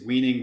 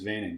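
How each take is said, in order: First: The name is said the English way. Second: The name is said the Dutch way. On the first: "Is it's Weening" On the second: "the Dutch pronunciation is Veining"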